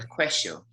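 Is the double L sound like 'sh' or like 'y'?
sh. The double L sounds like sh. "If you come from Argentina, they might even pronounce it with a sh"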